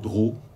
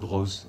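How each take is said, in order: First: The name ends on the vowel, no s sound. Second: The name ends with an audible s sound. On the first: This is how it is said outside the south. "on ne sait pas si vous dire l'éditeur Drault ou l'éditeur Droz" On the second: This is how it is said in the south. "quand on est du Midi, on a tendance à dire Droz"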